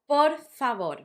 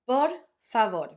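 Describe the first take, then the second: First: There is a pause between the two words. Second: The same.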